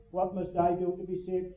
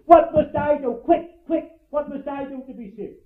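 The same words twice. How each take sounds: First: Softer, said off like a repeated phrase; rote recital. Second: Urgent cry, a touch higher, hurried at Quick, quick; a hint of the desperate jailer, sword drawn; desperate plea. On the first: Shown as a demonstration. Preacher showing how the phrase is usually repeated, rote. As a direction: recite it by rote without feeling. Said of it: "as we often have them repeated to us". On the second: Jailer at his wit's end begging, urgent plea. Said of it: "Here was a man who was going to kill himself".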